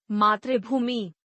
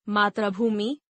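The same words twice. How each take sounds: First: मातृभूमि said slowly as "maatribhoomi" with an aspirated bh; correct reading. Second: मातृभूमि said as "matrabumi" with a plain b and no aspiration; misspelled reading. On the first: Teacher then reads the correct मातृभूमि slowly. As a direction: say मातृभूमि correctly and slowly, "maa-tri-bhoo-mi". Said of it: "शुद्ध वर्तनी". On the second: Teacher reads the misspelled form मातृभूमि aloud. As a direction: read मातृभूमि as the wrong spelling, "matrabumi". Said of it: "अशुद्ध वर्तनी". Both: Shown as a demonstration.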